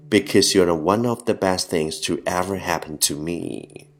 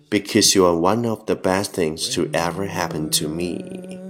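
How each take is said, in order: No difference in how they are said.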